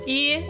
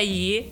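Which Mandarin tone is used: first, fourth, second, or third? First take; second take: first; third. First: It is said with the first tone. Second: It is said with the third tone. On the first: "i è il primo" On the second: "se terza è i"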